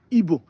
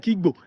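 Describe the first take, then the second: First: Igbo said as "ee-bo", no g; own dialect pronunciation. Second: Igbo with the g-b sounded; critics' corrected pronunciation. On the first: Shown as a demonstration. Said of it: "That's how I pronounce Igbo". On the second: Retold or imitated. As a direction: imitate critics saying Igbo with its "gb". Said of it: "I don't like the way you're pronouncing it".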